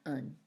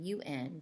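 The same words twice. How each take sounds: First: The syllable is weak and unstressed. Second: The syllable is said with clear stress. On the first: It is the ending sound at the end of a word. "That un sound is not stressed" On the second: It is the prefix meaning to reverse something. "because that has more of a stress to it"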